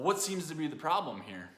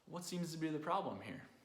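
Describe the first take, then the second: First: The question sounds harsh and confronting. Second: The question sounds warm and supportive. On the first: The person is being criticised for struggling. The speaker calls it wrong. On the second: The person is being offered help and care. The speaker calls it right.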